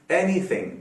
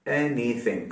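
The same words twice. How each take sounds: First: Said in the usual way. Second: एनीथिंग broken lightly into ए, नी, थिंग; softer, lower एनीथिंग, syllables set apart; split into syllables. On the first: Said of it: "आप बताएं". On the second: Shown as a demonstration. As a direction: sound out एनीथिंग in three parts. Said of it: "जिसमें तीन syllables हैं".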